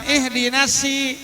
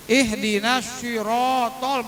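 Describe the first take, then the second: First: "si" with spread lips, higher, instead of rounded "so"; wrong thin s. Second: Slow chanted "sirotol" through pushed-out lips; rounded pouting lips. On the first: Teacher showing the mistake, "si" with spread lips. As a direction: say "si" with a light, thin s. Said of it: "dia nggak pakai sot, pakai sin". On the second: Teacher showing the correct reading, "sirotol" slowly with rounded lips. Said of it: "monyongin langsung". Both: Shown as a demonstration.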